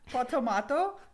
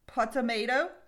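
First: It is said in a British accent. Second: It is said in an American accent.

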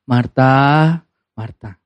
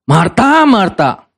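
First: It is said in a gentle tone. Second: It is said in a harsh tone.

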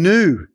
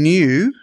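First: It is said in an American way. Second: It is said in the usual Australian way. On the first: The speaker calls it wrong. "people are now saying new" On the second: The speaker calls it right. "Instead of saying new"

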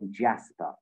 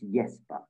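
First: The name is said with a non-Danish pronunciation. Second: The name is said with a Danish pronunciation. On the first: The name is deliberately mispronounced. The speaker calls it wrong. "she intentionally mispronounced my favourite player" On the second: The name is given its proper form. The speaker calls it right. "knowing the sort of Danish pronunciation"

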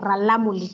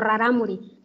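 First: The middle consonants are L sounds. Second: The middle consonants are R sounds. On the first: This is the community's own name for itself. The speaker calls it right. "utilizando la L" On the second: This is the form used by outsiders who could not pronounce the name. The speaker calls it wrong. "y no rarámuri"

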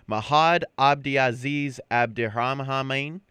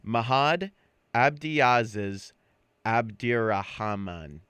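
First: The name is said at normal speed. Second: The name is said slowly.

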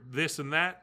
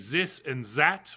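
First: It is said with a plain English TH sound. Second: It is said with a German-style TH sound. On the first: "for this and that" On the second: "like Germans say this and that"

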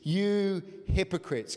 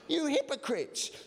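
First: It is said plainly, without strong feeling. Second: It is said with strong feeling.

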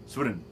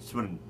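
The two takes are said the same way.

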